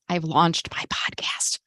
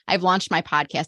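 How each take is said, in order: First: It is said in a whisper. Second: It is said in a normal voice.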